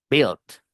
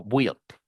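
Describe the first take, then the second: First: Built said "bilt"; correct pronunciation. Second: Built mispronounced "bwilt"; wrong pronunciation. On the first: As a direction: silent U in built, short I. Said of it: "con I pelada". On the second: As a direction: sound the U in built as W. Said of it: "No, built". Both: Shown as a demonstration.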